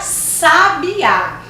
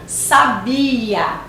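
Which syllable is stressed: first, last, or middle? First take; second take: last; middle. First: The stress is on the last syllable. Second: The stress is on the middle syllable. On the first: "a terceira é uma oxítona" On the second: "a segunda é uma paroxítona"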